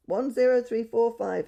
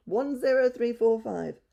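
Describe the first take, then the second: First: High, loud bird-like call; budgie calling. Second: High, loud and slow bird call; budgie calling slowly. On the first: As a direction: chirp the number like a parrot. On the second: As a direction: repeat the number slowly like a parrot. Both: A narrator's reading. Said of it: "he called".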